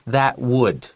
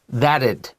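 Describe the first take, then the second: First: Both words are said fully as separate syllables. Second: The two words are squeezed into one quick syllable. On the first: "if that's difficult, just say" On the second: "If you say it quickly"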